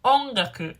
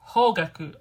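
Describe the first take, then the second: First: "ongaku" said with an opening o and no h, as people mishear it; misheard word. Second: "Hogaku" with a clear breathy h at the start; correcting the word. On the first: Explaining how people mishear her subject, "ongaku" louder. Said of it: "People hear". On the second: Correcting people who mishear her subject, firm "Hogaku". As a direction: stress the h in "Hogaku" firmly. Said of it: "No, no, no". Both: Shown as a demonstration.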